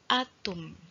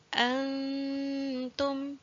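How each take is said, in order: First: The n sound is left out entirely. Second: The n is a faint nasal hum, not full. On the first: The speaker calls it wrong. "tidak jelas masuk langsung atum" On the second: The speaker calls it right. "di antara keduanya dikatakan samar"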